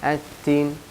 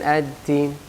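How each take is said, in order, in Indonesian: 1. Konsonannya lemah dan terdengar seperti t. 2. Konsonannya lemah dan terdengar seperti t.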